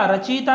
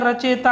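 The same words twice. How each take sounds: First: रचयिता with an "ee" sound, "rachita"; i vowel after ch in रचयिता; wrong form. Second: रचयिता with an "e" sound, "racheta"; e vowel after ch in रचयिता; correct form. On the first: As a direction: say रचयिता as "ra-chi-ta". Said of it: "रचयिता नहीं होता है". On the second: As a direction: say रचयिता as "ra-che-ta". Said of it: "रचयिता होता है". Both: Shown as a demonstration.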